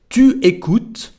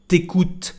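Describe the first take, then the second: First: The u of tu is pronounced fully. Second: The u of tu is dropped entirely. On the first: The careful, written-style form. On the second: The casual form used in speech.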